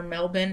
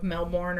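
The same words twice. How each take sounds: First: Melbourne said as MEL-bun, r dropped; Australian-style pronunciation. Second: Melbourne said as MEL-born, with the r; American pronunciation. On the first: Offering the Uber driver another version, Australian-style pronunciation. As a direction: say Melbourne ending in a short "bun". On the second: Asking the Uber driver, American pronunciation. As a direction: say Melbourne ending in a full "born". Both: Retold or imitated. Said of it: "I'm gonna pronounce it wrong".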